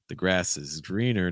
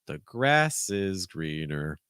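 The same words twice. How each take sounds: First: The stress falls on the word greener. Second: The stress falls on the word grass. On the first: "stressing greener" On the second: "if you're stressing grass"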